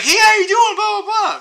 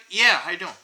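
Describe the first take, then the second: First: Very high, loud mock-friendly hello; overdone greeting. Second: Said in the usual way. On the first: Shown as a demonstration. Showing passers-by what they needn't do, overdone loud greeting. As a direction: exaggerate a gushing greeting, way up in pitch and volume. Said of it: "you don't have to be like". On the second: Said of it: "just be like".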